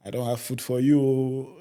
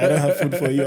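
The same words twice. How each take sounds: First: Said in the usual way. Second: Higher, louder imitation of mom; laughing mock of mom saying it; mother's flat refusal. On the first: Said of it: "And she said". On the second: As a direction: mimic mom turning him away. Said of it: "That's how she said it".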